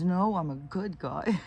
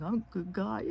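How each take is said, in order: First: Put-on much higher, slow, insistent toddler voice; protesting little grandson. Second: Put-on much higher toddler voice, earnest; little grandson. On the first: Grandson correcting his aunt, high insistent toddler voice. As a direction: stubbornly correct her like a small boy. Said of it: "And he's". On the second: Grandson insisting to his aunts, high toddler voice. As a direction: imitate a small boy insisting he's good. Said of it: "then he'll be like".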